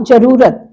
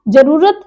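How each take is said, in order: First: Second जरूरत with rū held longer; long middle vowel. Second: First जरूरत with short ru; short middle vowel. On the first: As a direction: lengthen the rū in जरूरत. (जरूरत में लंबा ऊ) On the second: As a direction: keep ru quick in जरूरत. (जरूरत में छोटा उ) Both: Shown as a demonstration. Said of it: "दोनों में देखिए अब अंतर".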